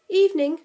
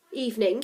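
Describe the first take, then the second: First: Higher, louder wary greeting; suspicious. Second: Put-on old Scotsman's greeting; broad Scottish accent. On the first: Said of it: "we replied suspiciously". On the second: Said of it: "in a broad Scottish accent". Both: A narrator's reading.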